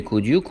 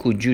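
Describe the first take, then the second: First: Said in the usual way. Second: "could you" with d and y merged into j; linked sounds. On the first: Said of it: "به جای could you". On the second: Shown as a demonstration. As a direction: say "could you" as "kood-joo".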